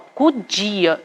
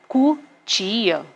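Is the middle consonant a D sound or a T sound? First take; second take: D sound; T sound. First: The middle consonant sounds like a D. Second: The middle consonant sounds like a T. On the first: The speaker calls it wrong. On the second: The speaker calls it right.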